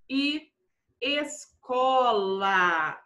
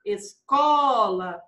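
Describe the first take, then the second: First: "escola" very slow, syllable by syllable; slow dictation. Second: "escola" with a long, leaning CO; calling the word. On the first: Teacher gives pupils an example word, slowly dictated. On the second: Teacher checks the strong syllable for pupils, calling the word. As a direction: call out "escola", holding the middle syllable. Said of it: "chame a palavrinha pra ter certeza". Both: Shown as a demonstration.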